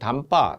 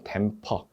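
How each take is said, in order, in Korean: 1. 일본식으로 'damba'라고 발음해요. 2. 'daempeo'처럼 p 소리를 넣어 발음해요. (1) "일본식 영어 발음으로 담바 그렇게 하는데" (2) "틀린 발음으로 하시면 안 되고요"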